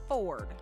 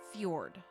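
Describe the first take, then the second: First: No 'y' sound is heard after the F. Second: A 'y' sound is heard after the F. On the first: This is how the makers like to say it. "they like to pronounce it Ford. Like a Ford F two fifty" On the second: This follows the spelling of the word. "The actual way, based on the spelling, to say that word is Fjord"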